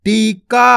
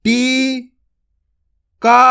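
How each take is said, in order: First: Said in the usual way. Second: टीका drawn out very slowly, long ई held; very slow sounding-out of टीका; slow spelled-out reading. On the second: Shown as a demonstration. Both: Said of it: "आपको टीका नहीं पढ़ना".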